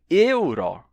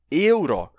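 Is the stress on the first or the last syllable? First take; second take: first; first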